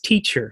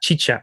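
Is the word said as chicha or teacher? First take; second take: teacher; chicha. First: The word is said as teacher. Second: The word is said as chicha. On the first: "it's teacher" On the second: "we say it chicha"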